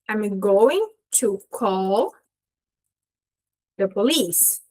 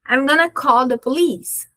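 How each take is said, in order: First: It uses the full form 'going to'. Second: It uses the reduced form 'gonna'. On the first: "se eu desmembro esse gonna aqui, eu vou ter going to" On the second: "esse gonna aqui"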